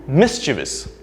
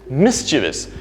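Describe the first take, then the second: First: The word is said with three syllables. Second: The same.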